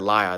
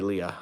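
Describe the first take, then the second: First: The name sounds like the word liar. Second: The name does not sound like liar. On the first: The speaker calls it wrong. "then it sounds like I'm calling someone a liar" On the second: The speaker calls it right. "so I'll say Leah"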